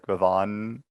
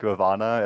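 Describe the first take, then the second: First: The name ends on the 'n' consonant. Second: The name ends with a final 'a' vowel. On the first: The speaker calls it right. "it's like Ravan" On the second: The speaker calls it wrong. "it's not like Ravana"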